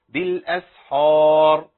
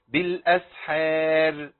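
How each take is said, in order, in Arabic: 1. يُنطق صوت h مفخَّمًا وممتلئًا. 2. يُنطق صوت r مرقَّقًا وخفيفًا. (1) "ما ينفعش أقول بالأسحار يبقى أنا فخمت الحاء" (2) "أو أقول بالأسحار ورقق الراء"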